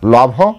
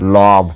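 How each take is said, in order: First: The final consonant is an aspirated bh. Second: The final consonant is a plain b. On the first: The speaker calls it wrong. "লভ নয়" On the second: The speaker calls it right. "লব ব"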